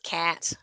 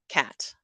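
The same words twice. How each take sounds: First: The vowel is drawn out and longer. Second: The vowel is short and widely spread. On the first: The speaker is in a professional setting. "if I'm in work mode, I have a longer cat" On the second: The speaker is talking in a home accent. "a cat is a very spread vowel"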